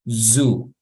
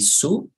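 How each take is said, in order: First: It starts with a buzzing z sound. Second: It starts with a hissing s sound. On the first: The speaker calls it right. "it's like an S, pero una S que vibra" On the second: The speaker calls it wrong. "we don't say su"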